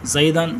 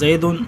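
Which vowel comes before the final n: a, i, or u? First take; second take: a; u. First: The word ends with the vowel a plus n. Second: The word ends with the vowel u plus n. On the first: The noun is in the accusative case. "دوسری مثال زیدن میں فتح ہے" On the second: The noun is in the nominative case. "پہلے مثال میں زیدن میں ضمہ ہے"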